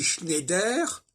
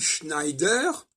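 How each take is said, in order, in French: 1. Le EI se prononce comme un simple E. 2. Le EI se prononce comme une diphtongue. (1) "on prononce le E I comme si c'était un E" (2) "on prononce correctement le E I"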